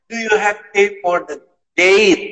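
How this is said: The last word's vowel sounds like 'ay'. It is what the speaker meant to say.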